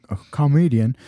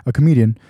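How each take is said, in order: First: "comedian" with a full "ah" in the first syllable, COM-edian; mispronounced comedian. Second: Said in the usual way. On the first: Real, not acted. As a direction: stumble into "comedian" as "kah-MEE-dian". Self-corrects a stumbled word.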